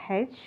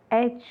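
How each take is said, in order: First: H said "haitch", with an h at the start; wrong-way H, beginning "hay"; H with h sound. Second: H said "aitch", opening on the vowel; letter H starting straight on a vowel; H without h sound. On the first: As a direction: put an audible h on the front of H. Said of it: "not H". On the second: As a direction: say H with no breathy h at the start. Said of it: "it is pronounced as H". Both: Shown as a demonstration.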